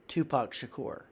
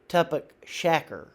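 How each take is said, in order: First: The name is pronounced in its standard form. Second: The name is pronounced in an altered form. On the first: The speaker calls it right. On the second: The speaker calls it wrong.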